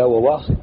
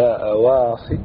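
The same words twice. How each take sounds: First: وواصل opening with a double w sound; two waws. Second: أواصل opening on a glottal stop; initial hamza. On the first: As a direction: keep both waws in وواصل, no hamza. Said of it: "بدل وواصل". (بواوين في أول وواصل) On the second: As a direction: say أواصل with hamza replacing the first waw. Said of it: "تبدل الهمزة الأولى، الواو الأولى همزة". (بهمزة في أول أواصل) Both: Shown as a demonstration.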